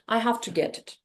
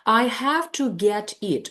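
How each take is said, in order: First: The words blur together, with an f sound. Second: Each word is said fully and separately. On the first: "In connected speech, it can sound like" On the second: "That's how the sentence should sound ideally"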